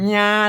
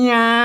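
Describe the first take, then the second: Both takes have the same delivery.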